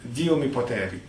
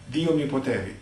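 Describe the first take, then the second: First: It is said in a relaxed everyday speaking voice. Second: The same.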